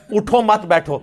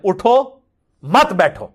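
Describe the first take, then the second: First: اٹھو مت, then a pause, then بیٹھو; اٹھو مت ... بیٹھو said as two parts, a pause after مت. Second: اٹھو, then a pause, then مت بیٹھو; اٹھو ... مت بیٹھو said as two parts, a pause after اٹھو. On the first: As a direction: break the line after مت so it means don't get up, sit. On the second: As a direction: break the line after اٹھو so it means get up, don't sit. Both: Shown as a demonstration. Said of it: "ایک ہی جملہ ہے، تھوڑی سی اس کی tone بدلنے سے".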